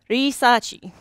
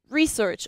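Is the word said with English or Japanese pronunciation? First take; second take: Japanese; English. First: The word is said with Japanese pronunciation. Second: The word is said with English pronunciation.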